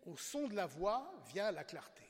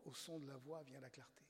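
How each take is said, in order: First: Chaque mot de «Au son de la voix vient la clarté» posé lentement, un peu plus haut et plus fort; titre détaché lentement. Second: «au son de la voix vient la clarté» soufflé à voix basse, sans timbre; chuchoté, savouré. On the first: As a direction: annonce le titre lentement, comme une devise. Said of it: "cet article est intitulé". (dire «Au son de la voix vient la clarté» lentement et solennellement) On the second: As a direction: murmure la phrase comme un trésor. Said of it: "vous vous rendez compte". (chuchoter «au son de la voix vient la clarté» avec émerveillement)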